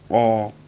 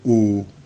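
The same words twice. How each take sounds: First: The vowel is an open o sound. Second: The vowel is a close o sound. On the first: The speaker calls it right. "it will be O" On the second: The speaker calls it wrong. "and not O"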